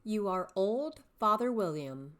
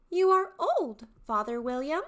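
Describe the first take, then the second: First: Said in the usual way. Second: High, loud, eager youth; young man's voice. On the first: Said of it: "perform the poem below using three distinct character voices". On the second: Shown as a demonstration. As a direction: call out to the old father, high and loud. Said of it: "three distinct character voices".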